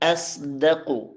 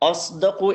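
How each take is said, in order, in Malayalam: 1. തുടക്കത്തിലെ സ്വരം നേർത്തതും ലഘുവുമായി കേൾക്കുന്നു. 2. തുടക്കത്തിലെ സ്വരം കനത്തും ഇരുണ്ടതുമായി കേൾക്കുന്നു, o പോലെ.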